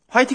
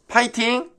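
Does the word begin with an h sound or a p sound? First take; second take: h sound; p sound. First: The word begins with an h sound. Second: The word begins with a p sound. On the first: The speaker calls it wrong. "화이팅 아니고" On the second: The speaker calls it right.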